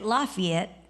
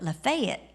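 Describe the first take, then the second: First: Lafayette is said the way Texans say it. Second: Lafayette is said the way Nashville locals say it. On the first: This is how it is said back home. "we would say it Lafayette because I'm from Texas" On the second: This is how the locals here say it. "they call it Lafayette"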